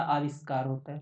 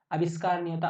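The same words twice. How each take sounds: First: आविष्कार said with a long first aa; correct form spoken. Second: आविष्कार said with a short first a, like अविष्कार; wrong spelling spoken. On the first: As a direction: stretch the opening of आविष्कार into a long aa-vish-kaar. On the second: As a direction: say आविष्कार as a-vish-kaar, short opening a. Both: Shown as a demonstration.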